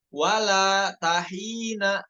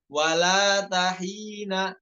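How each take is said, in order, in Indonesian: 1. Jeda setelah 'wala', sehingga 'ta' menyambung ke 'hina'. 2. Mengelompokkan 'walata' menjadi satu, lalu mengucapkan 'hina'. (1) "bacanya bukan wala tahina" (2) "walata satu kata, hina satu kata"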